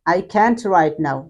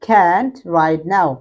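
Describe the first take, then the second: First: Said in the usual way. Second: Can't with the t dropped; American can't, very slow. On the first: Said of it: "সংক্ষেপে হচ্ছে". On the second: Shown as a demonstration. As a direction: swallow the t in can't. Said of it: "আমেরিকানরা করে না".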